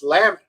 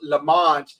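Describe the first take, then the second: First: The second syllable sounds like 'met'. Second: The second syllable sounds like 'mont'. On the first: This is the proper way to say it. The speaker calls it right. "but it's pronounced Lamet" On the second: This is how people in England say it. The speaker calls it wrong. "in England, they would pronounce it Lamont"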